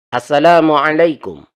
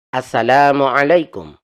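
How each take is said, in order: Both takes have the same delivery.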